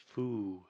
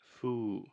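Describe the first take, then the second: The two takes are said the same way.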